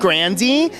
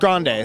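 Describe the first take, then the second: First: The name ends with a sound rhyming with Frankie. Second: The name ends with a sound not rhyming with Frankie. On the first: This is how the family said it growing up. "I didn't like the rhymingness of it. I didn't want to be [name]" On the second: This is the original Italian form of the name. "our original Italian roots, which is Grande"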